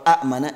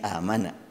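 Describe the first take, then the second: First: A glottal stop follows the short first vowel. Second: The first vowel is long, with no glottal stop. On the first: This is the underlying form before the change. "kalau a mana" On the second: This is the actual recited form after the change. "jadi amana"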